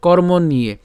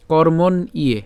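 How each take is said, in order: First: কর্ম নিয়ে run together as kormon-niye; joined pronunciation. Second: কর্মণ ইয়ে in two parts, kormon then iye; split pronunciation. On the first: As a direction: link the n straight into "iye" in কর্ম নিয়ে. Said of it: "আমরা এটা একসাথে উচ্চারণ করব". (একসাথে জুড়ে "কর্ম নিয়ে") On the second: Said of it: "মূর্ধন্য পর্যন্ত উচ্চারণ করব". (ভেঙে "কর্মণ" তারপর "ইয়ে") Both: Shown as a demonstration.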